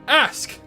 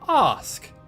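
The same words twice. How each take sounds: First: It is said in an American accent. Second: It is said in a non-American accent.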